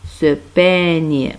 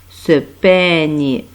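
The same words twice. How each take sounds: No difference in how they are said.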